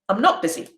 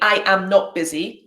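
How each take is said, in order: First: The words 'I am' are contracted to 'I'm'. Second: The words 'I am' are said in full. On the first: The speaker calls it right. "I say" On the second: The speaker calls it wrong. "I don't say"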